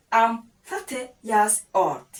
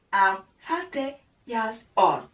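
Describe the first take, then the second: No difference in how they are said.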